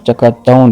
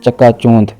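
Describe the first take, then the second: First: The first syllable has a short a vowel. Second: The first syllable has a vowel other than short a. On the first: The speaker calls it right. "दुरुस्त लफ्ज़ चकाचौंध है, चे पर ज़बर के साथ" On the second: The speaker calls it wrong. "लफ्ज़ बोलते हैं"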